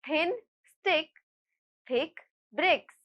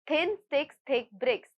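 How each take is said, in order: First: It is said at a normal, steady speed. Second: It is said quickly, at a faster speed. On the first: "I will repeat" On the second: "let's try saying this tongue twister faster"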